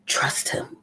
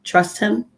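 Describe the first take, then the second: First: Soft whispered repeat. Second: Said in the usual way. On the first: Shown as a demonstration. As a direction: breathe it like a secret. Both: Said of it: "there's an old saying that says".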